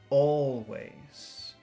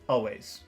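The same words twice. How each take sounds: First: The word is said with strong, focused emphasis. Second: The word is said plainly, without extra emphasis.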